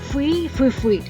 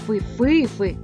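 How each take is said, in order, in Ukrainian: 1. Наголос на першому складі. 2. Наголос на середньому складі. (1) "Роблячи наголос на першому складі" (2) "роблячи наголос на середньому складі"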